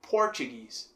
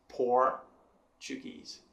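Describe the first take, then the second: First: "Portuguese" in one go, strong on "Por"; stress on first syllable. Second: "Portuguese" very slowly, pause after strong "Por"; stress on isolated Por. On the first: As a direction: lean on the opening "Por" of "Portuguese". ("Portuguese" com "Por" forte, sem separar) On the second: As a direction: split "Portuguese": "Por", pause, then the rest. ("Portuguese" bem devagar, com pausa depois de "Por") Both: Shown as a demonstration. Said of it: "Por sendo então a sílaba forte".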